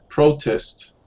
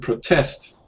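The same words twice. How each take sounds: First: The stress is on the first syllable. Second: The stress is on the second syllable. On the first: It is used as a noun. "Protest is the noun" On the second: It is used as a verb. "To protest is the verb"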